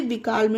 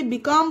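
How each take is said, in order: First: "बीकाल्म" with an audible L before M; "बीकाल्म", both L and M pronounced; sounded L. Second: "बीकॉम" with the L left out; "बीकॉम", vowel running straight into M; silent L. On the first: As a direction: wrongly voice the L in "बीकाल्म". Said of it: "नहीं पढ़ना". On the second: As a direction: say "बीकॉम", no L before the M. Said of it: "आप इसे बीकॉम पढ़ना". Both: Shown as a demonstration.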